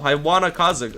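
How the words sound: The middle consonant is a soft w sound. "that's really just how I pronounce it"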